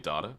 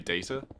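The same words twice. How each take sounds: First: It is said the way some Australians say it. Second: It is said the usual British or American way. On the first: "some people who say data. But I feel that's mainly Australians" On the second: "both British and American people say data"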